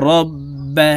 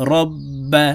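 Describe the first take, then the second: First: রব্বা called out for the class, with the ব doubled; repeat-after-me. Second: রব্বা with the ব held double; doubled letter demo. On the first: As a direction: model রব্বা for students to repeat. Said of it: "আপনারা আমার সঙ্গে বলার জন্য চেষ্টা করুন". (শিক্ষার্থীদের জন্য রব্বা বলে দেওয়া) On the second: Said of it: "দুইবার উচ্চারণ করে পড়তে হবে". (তাসদিদ দিয়ে রব্বা) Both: Shown as a demonstration.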